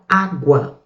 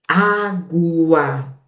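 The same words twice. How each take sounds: First: Said in the usual way. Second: "Água" slowly stretched into its syllables; syllables drawn out. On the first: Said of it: "vamos pegar aqui a água". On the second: Shown as a demonstration. Teacher shows students the ending diphthong, "Água" stretched out. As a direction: draw out both parts of "Água". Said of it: "vamos contrastar os dois aqui".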